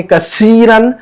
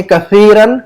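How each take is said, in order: First: कसीरन drawn out with a clear s; seen s sound. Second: कसीरन drawn out with a th, tongue tip out. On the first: Teacher showing the word for "broken", clear s sound. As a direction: say कसीरन as "ka-SEE-ran", long vowel. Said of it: "सीन की आवाज निकल रही है". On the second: Teacher showing the word for "more", tongue-tip th. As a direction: say कसीरन slowly as "ka-THEE-ran". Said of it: "जुबान की नोक से". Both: Shown as a demonstration.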